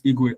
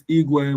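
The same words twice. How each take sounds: First: Igwe in the second of two contrasting tones. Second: Igwe in the first of two contrasting tones. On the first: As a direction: let Igwe fall slightly, as against its twin. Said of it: "pronounce that correctly". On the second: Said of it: "One is Igwe, one is Igwe". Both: Shown as a demonstration.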